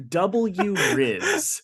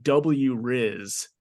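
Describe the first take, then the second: First: Higher, mocking kid's "W Riz". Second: Said in the usual way. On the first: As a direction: parrot "W Riz" in a higher, sneering kid voice. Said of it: "says that out loud". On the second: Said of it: "the kid goes".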